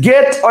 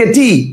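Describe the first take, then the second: First: Said in the usual way. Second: Getty with the final e sounded as "ee"; wrong pronunciation. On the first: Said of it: "এটার উচ্চারণ করেন". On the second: Shown as a demonstration. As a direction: say getty in two syllables, ge-tee. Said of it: "উচ্চারণ অনুসারে এটা হয়ে গেছে গেটি".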